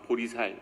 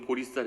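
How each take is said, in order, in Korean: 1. 마지막 음절은 평음 s 소리로 시작합니다. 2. 마지막 음절은 경음 s 소리로 시작합니다. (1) "발음을 정확히 못하는 그 지역 방언" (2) "그럼 보리쌀 해봐"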